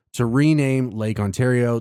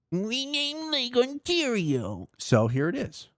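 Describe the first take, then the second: First: Said in the usual way. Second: "rename Lake Ontario" much higher, slow and whiny, like a crybaby; mock the president as a whining baby. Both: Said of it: "cry like a diaper-filled bitch baby".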